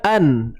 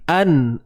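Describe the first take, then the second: First: The n sound is clearly pronounced. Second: The same.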